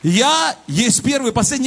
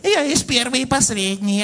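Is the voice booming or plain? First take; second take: booming; plain. First: The voice is loud and booming. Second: The voice is plain and ordinary. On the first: The speaker calls it right. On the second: The speaker calls it wrong.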